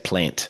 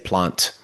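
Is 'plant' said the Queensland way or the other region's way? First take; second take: Queensland; other region. First: Said with the Queensland regional vowel. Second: Said with the other Australian region's vowel. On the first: "Whereas here in Queensland, we say plant" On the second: "Like a lot of people there, ... they'll say plant"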